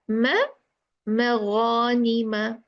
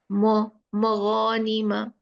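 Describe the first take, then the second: First: The first m is light and thin. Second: The first m is heavy and thick. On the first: The speaker calls it right. "make the letter which is light before the heavy letter, just make it more lighter" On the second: The speaker calls it wrong. "not mo maghanima"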